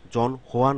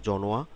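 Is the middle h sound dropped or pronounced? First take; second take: pronounced; dropped. First: The h sound in the middle is pronounced. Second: The h sound in the middle is dropped. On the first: The speaker calls it wrong. "জন হোয়া না হয়ে" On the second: The speaker calls it right. "এটার উচ্চারণটা হবে জনোয়া"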